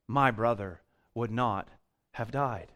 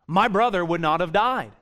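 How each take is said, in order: First: It is said in a calm, trusting tone. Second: It is said in a reproachful, accusing tone. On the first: Jesus is trusted to have had the power to save. "Or is it a statement of faith?" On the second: Jesus is blamed for not coming in time.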